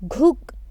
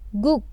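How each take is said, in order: First: The first consonant is strong and heavily stressed. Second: The first consonant is softer with reduced stress. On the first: "Normally, ghuk" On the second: "We will pronounce it guk"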